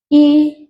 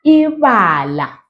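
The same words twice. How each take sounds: First: Said in the usual way. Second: A bit quicker. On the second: Shown as a demonstration. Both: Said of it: "Maybe a bit quicker".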